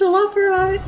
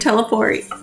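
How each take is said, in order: First: It has four syllables ending in 'oy'. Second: It sounds like the word 'teleport'. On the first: The speaker calls it right. "That's how you say it" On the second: The speaker calls it wrong. "This whole time, I've been saying teleport"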